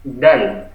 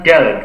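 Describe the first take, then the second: First: "dal" drawn out slowly with the Arabic letter's sound; correct Arabic dal. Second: "dal" with the everyday Indonesian D; wrong dal. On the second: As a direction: say "dal" as the incorrect example, plain D. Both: Shown as a demonstration. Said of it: "bukan dal, tapi dal".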